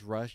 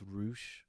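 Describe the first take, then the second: First: The vowel is a short 'uh' sound. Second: The vowel is a long 'oo' sound. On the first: The speaker calls it wrong. "you don't pronounce it as Rush" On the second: The speaker calls it right. "you pronounce it as Roosh"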